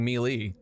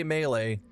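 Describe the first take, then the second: First: "melee" said mee-lee, ee in both syllables; "melee" as mee-lee, the streamer's way; own melee. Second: "melee" said may-lay, both syllables with a long A; "melee" as may-lay, the French way; French-style melee. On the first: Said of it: "my way of saying it". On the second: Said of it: "I'm going to continue saying melee". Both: Shown as a demonstration.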